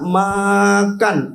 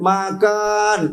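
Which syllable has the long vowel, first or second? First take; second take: first; second. First: The vowel of the first syllable is lengthened. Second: The vowel of the second syllable is lengthened. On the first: "ma-nya panjang" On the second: "kan-nya panjang"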